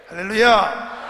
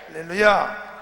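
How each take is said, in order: No difference in how they are said.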